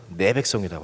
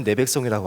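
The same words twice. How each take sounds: First: First word 내 set apart and stressed, meaning "your". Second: Said in the usual way. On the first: Retold or imitated. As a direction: lean on 내 to contrast "your people" with "my people". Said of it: "모세 너의 백성이라고". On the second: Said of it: "하나님이 그전까지는".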